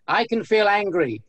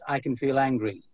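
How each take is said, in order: First: It is said in a quiet whisper. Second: It is said in a loud, projected voice. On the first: "Then you announce it to the world or to the room" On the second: "So you speak it in your normal voice"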